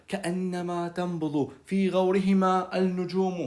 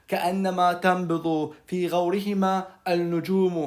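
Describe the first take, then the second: Both takes have the same delivery.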